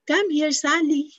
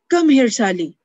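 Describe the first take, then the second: First: It sounds loving and warm. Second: It sounds angry and harsh.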